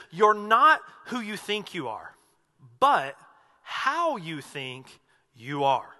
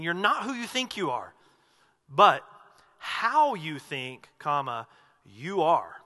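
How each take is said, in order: First: Slow, deliberate pauses before "how you think you are"; pause, then lean on "how"; quote with pauses. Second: "not" stressed, long pause, then slow "how you think, you are"; marked pauses. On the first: Retold or imitated. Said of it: "So hear that with the pauses". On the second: Shown as a demonstration. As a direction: spell out each pause, slowly. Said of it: "the inflection here".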